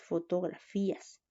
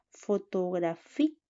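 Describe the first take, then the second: First: Said in the usual way. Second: "Fotografías" broken up, loud rising FÍ; stress on FÍ. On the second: Shown as a demonstration. Teacher showing students where the accent mark goes, FÍ stressed in "Fotografías". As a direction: lean hard on the FÍ in "Fotografías". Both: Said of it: "lleva tilde".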